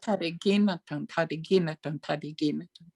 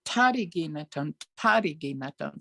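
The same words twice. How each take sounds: First: Tadigi na tone with the beat leaning on na; stress on na. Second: Tadigi na tone with a strong ta at the start; accent the T. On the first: Retold or imitated. Student imitates the teacher's accent on na. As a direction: lean on na, the third syllable. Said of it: "an accent on three". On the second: Shown as a demonstration. Student tries the accent on the opening ta. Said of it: "kind of accent the T".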